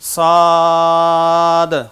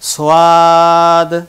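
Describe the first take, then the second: First: The word is said as plain 'sad'. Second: The word is said with a 'wa' glide, 'swad'.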